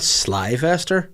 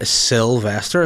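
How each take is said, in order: First: The first syllable sounds like 'sly'. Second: The first syllable sounds like 'sill'. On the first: The speaker calls it wrong. "It's not Slyvester" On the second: The speaker calls it right.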